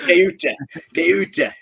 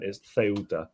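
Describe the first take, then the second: First: Put-on Ceuta with a hard K in a northern Lancashire accent, raised and loud; hammed-up Lancashire, Ceuta said KEW-ta; jokey Lancashire accent, Ceuta with a K; mock Lancashire accent. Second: Ceuta said the Spanish way, soft th-sound at the start; Ceuta with a Spanish lisp on the C. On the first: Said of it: "if you want to say it with a Lancashire accent". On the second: Shown as a demonstration. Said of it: "if you want to say it with a Spanish accent".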